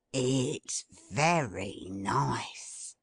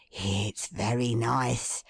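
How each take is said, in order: First: Slow, low, savouring sniff-talk; savouring Toby. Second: Slow, low musing; musing Toby. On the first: Toby savours the smell from the basket, slowly. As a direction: relish the smell. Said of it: "inhaling laughing gas". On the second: Toby muses over the smell, slow and low. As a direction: savour it thoughtfully. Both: A narrator's reading.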